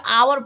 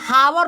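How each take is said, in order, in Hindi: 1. शब्द की शुरुआत स्वर से होती है, यहाँ h नहीं है। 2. इस शब्द की शुरुआत में सुनाई देने वाली h ध्वनि है। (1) "आवर पढ़ते क्योंकि एच साइलेंट है" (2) "यहाँ हावर मत पढ़िएगा"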